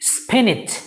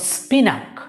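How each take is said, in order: First: The second syllable sounds like 'nitch'. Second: The second syllable sounds like 'nak'. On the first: The speaker calls it right. "The correct pronunciation is স্পিনিচ" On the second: The speaker calls it wrong. "দুটোর একটিও সঠিক নয়"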